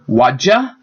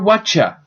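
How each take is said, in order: First: The middle sound is a voiced 'j'. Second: The middle sound is a voiceless 'ch'. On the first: "changes either to the j or cha" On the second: "changes either to the j or cha"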